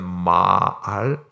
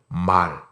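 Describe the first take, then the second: First: The word is drawn out into two syllables. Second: The word is said quickly as one syllable.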